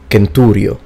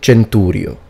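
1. คำนี้ขึ้นต้นด้วยเสียง k แข็ง 2. คำนี้ขึ้นต้นด้วยเสียง ch (1) "I will first read it in classical Latin" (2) "and then I will read it in ecclesiastical Latin"

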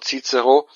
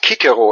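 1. Beide C werden als Ts-Laut gesprochen. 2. Beide C werden als K-Laut gesprochen. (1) "anstatt von" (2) "der spricht das C als K aus"

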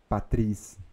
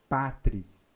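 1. A tonicidade está na última sílaba. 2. A tonicidade está na primeira sílaba. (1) "Não existe patris. Não existe oxítona" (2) "Então, patris. Duas sílabas"

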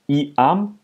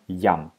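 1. Es beginnt mit einem ee-Vokal, zwei Silben. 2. Es beginnt mit einem y-Laut, eine Silbe. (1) "Also nicht I-am" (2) "wie J ausgesprochen"

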